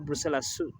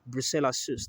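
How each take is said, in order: First: The last word is said in a casual, shortened way. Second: The last word is said carefully, following its spelling. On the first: "You could say Brucella sus" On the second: "to get the clear uh, pronunciation, or just to come out with the spelling"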